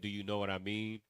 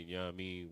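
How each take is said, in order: First: Each word is said fully and separately. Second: The words are reduced and run together. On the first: "Instead of saying" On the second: "we put it all together"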